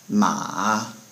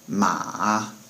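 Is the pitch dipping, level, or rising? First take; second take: dipping; dipping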